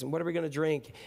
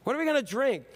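First: Said in the usual way. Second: High-pitched whiny complaint; complaining demand. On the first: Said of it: "And they demanded". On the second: Acted. Crowd complaining to Moses about water, high whine. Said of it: "They complained and turned to Moses".

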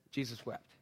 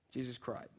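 First: Hushed and solemn. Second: Low, quiet restatement; tender hush; hushed and solemn. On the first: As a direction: drop the voice low and quiet. Solemn shortest verse. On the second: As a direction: say it softly, barely there. Solemn paraphrase. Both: Acted.

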